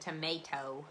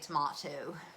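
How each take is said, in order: First: It is said with a plain Canadian pronunciation. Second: It is said with a posh-sounding pronunciation. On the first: "And I said tomato" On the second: "that sounds weird too with my Canadian accent and then saying tomato. Like, I think I'm so posh"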